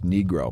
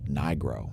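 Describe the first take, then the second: First: The first vowel is short, not a long I. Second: The first vowel is a long I sound. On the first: This is how it is said in Italy. "In Italy, it is pronounced" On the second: This is how it is said in the US. "everybody in the U S pronounces it with a long I sound"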